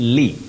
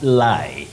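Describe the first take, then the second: First: The syllable is said as 'li'. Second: The syllable is said as 'lie'. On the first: The speaker calls it right. "you say li" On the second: The speaker calls it wrong. "not lie"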